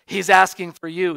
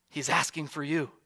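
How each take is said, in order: First: Louder, leaning hard on "asking"; emphatic repeat. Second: Said in the usual way. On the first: Acted. Preacher urging the congregation that Jesus calls them, emphatic. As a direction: press the invitation home, stressing "asking".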